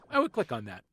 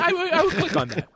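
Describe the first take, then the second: First: Said in the usual way. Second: Said through a laugh; amused, laughing delivery. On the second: Real, not acted. Laughing while repeating.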